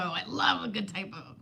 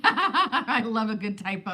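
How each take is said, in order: First: Said in the usual way. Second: Laughing through the words; chuckling while speaking. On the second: Real, not acted. Laughing over a typo.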